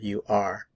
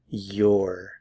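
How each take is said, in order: First: It is said in full as two words. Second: It is contracted into one syllable.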